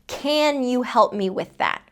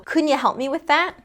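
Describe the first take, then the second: First: The word 'can' has a full vowel. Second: The word 'can' is reduced to 'kun'. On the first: "I wouldn't say, ... it wouldn't be incorrect if I did pronounce it that way" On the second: "I'm not saying can, I'm saying kun"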